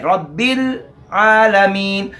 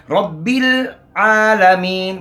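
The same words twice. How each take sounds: First: रब्बिल आलमीन slow, लाम held then clear आइन; correct recitation. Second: रब्बिल आलमीन slow, heavy रा, लाम held firm; correct recitation. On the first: Teacher recites रब्बिल आलमीन correctly, slow and careful. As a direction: let the लाम rest before आलमीन, slowly. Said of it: "आगे आइन की आवाज़ आए". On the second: Teacher models रब्बिल आलमीन for students, slow and careful. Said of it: "आगे जो असल गलती है". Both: Shown as a demonstration.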